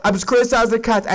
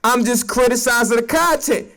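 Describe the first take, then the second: First: Fast, rattled-off insistence; fast repeat. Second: Said in the usual way. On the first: Real, not acted. Defending himself to SNL, fast rattled-off repeat. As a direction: rush it out like an excuse. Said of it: "repeated quickly". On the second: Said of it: "repeats it faster".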